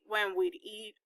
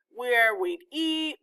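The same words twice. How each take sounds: First: Softer, weight shifted to "when"; stress on when. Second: Slow, leaning hard on "eat"; stress on eat. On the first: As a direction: hit "when" in "when we'd eat" and drop the rest. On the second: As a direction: draw out "Where we'd eat" with the weight on "eat". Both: A narrator's reading. Listing Mama's plans.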